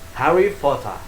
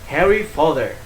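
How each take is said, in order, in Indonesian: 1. Diucapkan dengan aksen Inggris. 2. Diucapkan dengan aksen Amerika. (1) "Kalau di Inggris" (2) "Di Amerika dibaca dengan"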